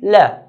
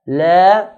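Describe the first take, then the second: First: The vowel is short, at normal length. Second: The vowel is held for about two beats. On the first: "to say it once will be la" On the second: "this is what two counts mean"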